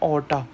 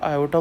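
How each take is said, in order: First: The word begins with a plain 'o' sound. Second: The word begins with an 'ay-yo' sound.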